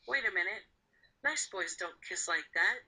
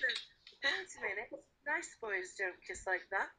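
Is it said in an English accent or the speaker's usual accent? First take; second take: usual accent; English accent. First: It is said in the speaker's usual accent. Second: It is said in an English accent.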